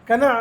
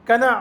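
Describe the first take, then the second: Both takes have the same delivery.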